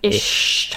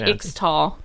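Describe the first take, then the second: First: The middle consonant is pronounced as a 'sh' sound. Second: The middle consonant is pronounced as a 'ks' sound. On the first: The speaker calls it right. "we don't say the X" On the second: The speaker calls it wrong. "I was going to say Ixtal"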